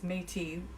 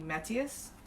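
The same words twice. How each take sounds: First: The name is said with a Canadian French pronunciation. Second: The name is said without the Canadian French pronunciation. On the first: The speaker calls it wrong. "which is a Canadian pronunciation, which is not correct" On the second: The speaker calls it right. "I think it might be Métis"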